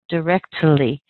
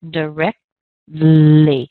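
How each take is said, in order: First: The T is pushed out with a sharp puff. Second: The T is stopped, gliding into a soft L. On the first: The speaker calls it wrong. "That's not right" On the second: The speaker calls it right. "You don't really even hear much of that T anymore"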